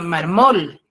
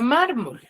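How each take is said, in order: First: The stress is on the last syllable. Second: The stress is on the first syllable. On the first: The speaker calls it wrong. "si yo le coloco la tilde en la última sílaba, en la mol, yo diría marmol" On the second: The speaker calls it right. "yo tengo la palabra mármol"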